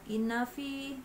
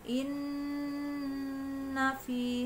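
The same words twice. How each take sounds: First: The n is passed over quickly without holding. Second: The n is held for far too long. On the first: "jangan langsung" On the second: "terlalu lama"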